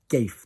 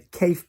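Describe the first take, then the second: First: The word begins with a voiced G sound. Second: The word begins with a hard K sound. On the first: "because the soft mutation that we have when we're asking questions" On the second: "the K becomes a G"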